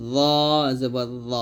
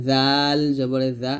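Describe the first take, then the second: First: Arabic ẓa heavy. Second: জাল জবরে জা slow and thin; Arabic dhal light. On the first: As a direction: make জ heavy. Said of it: "এটা মোটা". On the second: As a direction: keep জা light. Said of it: "এটা হবে পাতলা". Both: Shown as a demonstration.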